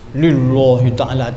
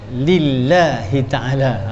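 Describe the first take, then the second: First: The l sound in lillahi is thick. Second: The l sound in lillahi is thin. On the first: The speaker calls it wrong. "tak boleh" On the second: The speaker calls it right. "mesti baca"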